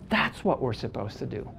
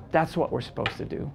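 First: Softer, lower echo of the line; repeating the lesson to the room, softly for weight; quiet repeat. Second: Said in the usual way. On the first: Real, not acted. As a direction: let it sink in, pulled back.

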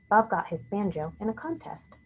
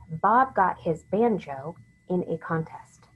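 First: Said in the usual way. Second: Slow, deliberate sentence for dictation. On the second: Shown as a demonstration. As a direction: give out each word slowly and distinctly. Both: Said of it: "Here's the sentence".

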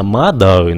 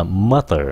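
First: Mother as "ma-đờ", no final r; wrong pronunciation. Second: Mother with a light t-like th, "ma-ter"; correct pronunciation. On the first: Teacher shows another mistake, Vietnamese đ. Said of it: "không phải là mother nữa". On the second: Teacher gives the right word, light th. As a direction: say mother with an unaspirated th and final r. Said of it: "nó là mother". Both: Shown as a demonstration.

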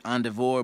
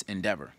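First: "endeavor" with an AHN start and a VOR ending; mispronounced ENDEAVOR. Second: "endeavor" with DEV stressed and an unstressed -er ending; corrected ENDEAVOR. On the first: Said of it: "And I said endeavor". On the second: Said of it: "but it's endeavor". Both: Shown as a demonstration.

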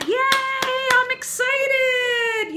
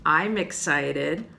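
First: Very high, drawn-out squeal of a cheer; big, squealing excitement; excited. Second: Said in the usual way. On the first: Shown as a demonstration. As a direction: cheer it out for children to copy. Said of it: "You do your excited face".

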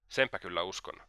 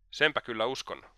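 First: Muttered under the breath, sneering; mocking mutter. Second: A light, half-raised exclamation; mild exclamation. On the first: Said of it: "mutisi Raskolnikov pilkaten". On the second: Acted. Raskolnikov answering Svidrigailov as he rises, a mild exclamation. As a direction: toss it out as a mild outburst. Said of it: "huudahti Raskolnikov".

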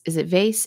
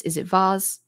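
First: "vase" rhyming with "face"; vase as VAYSS. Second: "vase" with an "ah" vowel and z ending; vase as VAHZ. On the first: Declutterer asking viewers how to pronounce it, "vase" said VAYSS. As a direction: say "vase" with a long A and an s ending. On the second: Declutterer offering viewers the other pronunciation, "vase" said VAHZ. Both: Shown as a demonstration. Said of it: "no idea how to pronounce this".

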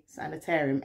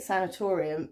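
First: "sanitarium" with a TAIR syllable, as in America; American word form. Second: "sanatorium" with a TOR syllable, as in England; English pronunciation. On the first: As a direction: say "sanitarium" the American way, "air" in the middle. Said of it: "But in America, you say". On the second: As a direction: say "sanatorium" the English way, stressed "or" sound. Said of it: "in England, that's how we say it". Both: Shown as a demonstration.

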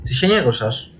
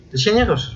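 First: Said in the usual way. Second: Anxious and higher, unsure; nervous high question. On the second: Real, not acted. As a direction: ask it again, suddenly frightened. Repeats the same words, worried.

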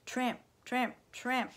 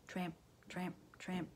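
First: Loud, higher, rhythmic footfalls; marching up close. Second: Soft, rhythmic footfalls in single words; distant marching. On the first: Narrator imitating soldiers now arriving, loud and rhythmic. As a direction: punch each word like boots right beside you. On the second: Narrator imitating soldiers heard in the distance, soft and rhythmic. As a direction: chant it softly like far-off marching. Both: A narrator's reading.

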